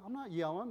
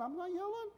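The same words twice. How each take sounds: First: Said in the usual way. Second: Higher take. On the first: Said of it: "Why do you yell?". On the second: Retold or imitated. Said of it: "Why are you yelling?".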